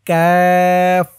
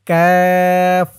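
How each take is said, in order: The two takes are said the same way.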